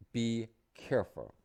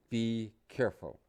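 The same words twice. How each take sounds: First: Teacher models "Be careful" slowly, stressing "Be" for the class; model phrase, slower. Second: Teacher says "Be careful" along with students, clearly, "Be" stressed; model phrase. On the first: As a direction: say "Be careful" slowly and clearly, leaning on "Be". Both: Shown as a demonstration. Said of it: "You say it with me".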